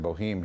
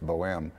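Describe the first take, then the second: First: The name is said with a local anglicized pronunciation. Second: The name is said with a French-style pronunciation. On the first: This is how people in the area say it. The speaker calls it wrong. "they pronounce it Boheme here" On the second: This is the original pronunciation of the opera title. The speaker calls it right. "but it's it's Bohème"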